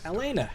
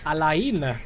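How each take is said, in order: First: The name is said in a plain, ordinary way. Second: The name is said in a posh, flowery way. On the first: This is the familiar way the speaker learned it. "I learned how to say Elena from the Uncharted games" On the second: This is the new way the speaker will adopt. "I'll say that from now on. Alaina. Sounds very posh"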